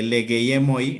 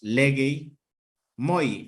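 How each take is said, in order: First: The e before moi is kept. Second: The e before moi is dropped. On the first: The speaker calls it wrong. "no les suenan bien los diptongos de las vocales" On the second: The speaker calls it right. "hacen la elisión de la E"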